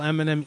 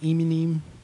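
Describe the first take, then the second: First: The name is said in an American accent. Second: The name is said in a New Zealand accent.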